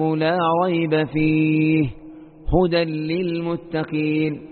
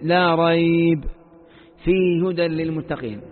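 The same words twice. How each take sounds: First: There is a pause right after 'fihi'. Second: There is a pause right after 'rayb'. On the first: The whole Book is guidance. The speaker calls it right. "وإذا لم تقف عند ريب فإنك تقف عند فيه" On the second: Only part of the Book is called guidance. The speaker calls it wrong. "فإذا وقفت عند لا ريب فإنك لا تقف عند فيه"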